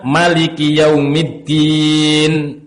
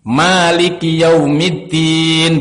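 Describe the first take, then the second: First: The vowel after the m is short. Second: The vowel after the m is long. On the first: "Mimnya tidak dibaca mad, tidak dibaca panjang" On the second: "mimnya panjang. Maliki yaumiddin, begitu"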